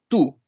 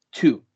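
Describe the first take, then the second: First: The t is plain, like Spanish 'tú'. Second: The t has a slight s-like hiss. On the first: The speaker calls it wrong. "no es tú solamente" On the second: The speaker calls it right. "con este eh, eh, sonido un poco de S en intermedia"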